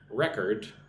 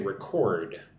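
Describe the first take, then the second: First: The stress is on the first syllable. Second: The stress is on the second syllable. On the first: It is used as a noun. "here's the noun" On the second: It is used as a verb. "with the emphasis on the second syllable"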